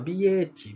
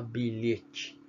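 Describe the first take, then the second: First: The word is pronounced in a babyish, distorted way. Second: The word is pronounced in the standard adult way. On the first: This is how a small child first attempts the word. The speaker calls it wrong. "Você começou a falar bilhete" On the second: This is how the word sounds once it is learned. The speaker calls it right. "para depois falar bilhete"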